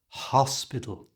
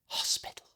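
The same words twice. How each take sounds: First: Only the first sound is whispered. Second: The whole word is whispered. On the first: "stop whispering after you pass the H" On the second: "You first say the word by whispering"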